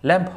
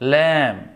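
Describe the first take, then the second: First: The word ends with an audible b sound. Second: The word ends in m with no b sound. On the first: The speaker calls it wrong. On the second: The speaker calls it right.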